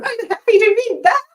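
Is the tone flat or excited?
excited. It is said in an excited, buzzing tone.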